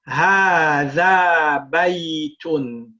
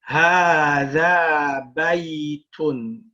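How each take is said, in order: The two takes are said the same way.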